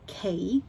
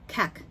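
First: The vowel is a long a sound. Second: The vowel is short and clipped. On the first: The speaker calls it right. "要念cake" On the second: The speaker calls it wrong. "很多学生这边的发音错误会是这个a 的地方，会常念成cake"

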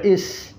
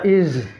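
First: The word ends in an s sound. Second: The word ends in a z sound. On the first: "kadang dibaca is" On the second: "dibaca iz"

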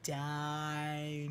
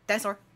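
First: The word is said slowly. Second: The word is said fast.

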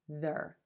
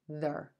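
First: The word has a short, reduced vowel. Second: The same.

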